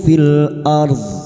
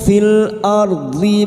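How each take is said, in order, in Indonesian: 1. Kata ini berakhir dengan konsonan mati, tanpa vokal. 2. Kata ini berakhir dengan vokal i, lalu disambung ke kata berikutnya. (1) "kita wakaf di sini" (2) "Sekarang di sini kita wasal"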